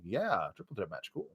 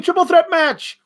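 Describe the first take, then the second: First: Low, quiet, unimpressed yeah; deadpan unimpressed. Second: High excited cheer; mock crowd cheer. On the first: Retold or imitated. The fan shrugs off the announced match, low and quiet. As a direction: mutter it like you couldn't care less. His own unimpressed reaction. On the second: The crowd hears the match announced, high and excited. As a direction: sell it like a thrilled fan. Crowd version of the same words.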